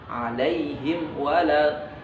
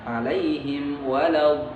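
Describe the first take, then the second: Both takes have the same delivery.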